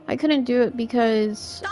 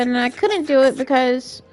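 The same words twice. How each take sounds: First: Said in the usual way. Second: Real raised, overloud voice; yelling. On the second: Real, not acted. Streamer explaining why it was left undone, yelling. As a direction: get needlessly loud while explaining. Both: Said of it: "I don't know why I'm yelling".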